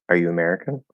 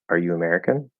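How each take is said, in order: The two takes are said the same way.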